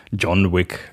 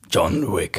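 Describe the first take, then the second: First: Said in the usual way. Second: Deep movie trailer announcer voice. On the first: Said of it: "mit der Trailerstimme". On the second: Shown as a demonstration. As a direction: say it like a film trailer voice. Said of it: "man muss das so sagen".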